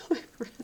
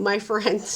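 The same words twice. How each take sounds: First: Breathless whispered my friend with a laugh; whispered aside. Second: Said in the usual way. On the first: Real, not acted. Hiding the friend's name, a whispered My friend. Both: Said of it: "I'm not gonna say his name".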